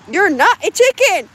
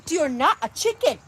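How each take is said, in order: First: Loud, high mock scold at a hen; teasing shout at a stubborn hen. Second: Mock insistence. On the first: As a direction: call out the hen in a big teasing voice. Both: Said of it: "And this is how it".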